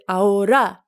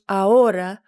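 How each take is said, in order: First: The stress is on the last syllable. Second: The stress is on the second syllable. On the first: The speaker calls it wrong. "with the accent on the last syllable" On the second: The speaker calls it right. "with the accent on the second syllable"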